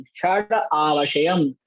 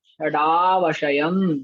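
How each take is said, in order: First: "षड आवशयम" with षड and आवशयम said as separate words; word split at the compound seam. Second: Said in the usual way. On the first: Shown as a demonstration. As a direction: break षडावशयम into षड and आवशयम. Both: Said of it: "तथा पदच्छेद करेंगे".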